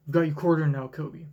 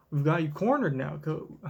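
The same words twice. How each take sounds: First: Said in the usual way. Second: A hint of country twang on cornered; lightly put-on country accent. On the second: Kuyaku cornering Kobe, light country accent. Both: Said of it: "let's get out of the accent".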